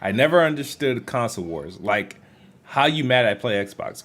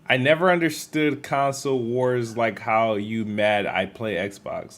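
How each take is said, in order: First: It breaks after 'wars' and ends as a question. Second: It runs on with no break after 'wars'.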